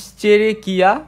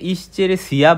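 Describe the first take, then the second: First: The ending is said with a k sound. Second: The ending is said with an s sound. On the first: The speaker calls it right. "এটা আসল উচ্চারণ কিয়া" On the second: The speaker calls it wrong. "আমরা অনেকে এটাকে ইশ্চেরেসিয়া বলি"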